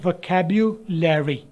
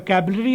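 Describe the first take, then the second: First: The b is followed by a 'yu' sound. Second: The b is followed by a plain u sound. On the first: The speaker calls it right. "आपने बोलना है वोकैब्युलरी" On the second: The speaker calls it wrong. "इसको आपने वोकैबुलरी आमतौर पर लिखते हैं"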